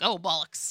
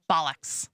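First: Oh, bollocks said in a British accent. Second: Bollocks said with an "ah" vowel like "ball". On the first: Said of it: "not bollocks like, oh, bollocks". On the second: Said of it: "B A L L O C K S". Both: Shown as a demonstration.

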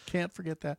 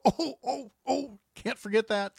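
First: Said in the usual way. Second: High, startled oh-oh-oh; suddenly remembering, alarmed; sudden panic. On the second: Retold or imitated. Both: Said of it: "listeners who go".

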